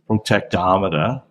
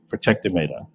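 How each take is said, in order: First: It is said with a North American accent. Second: It is said with an Australian accent. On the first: "you guys in North America, I think you'd be inclined to say protectometer" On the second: "So this would be protectometer"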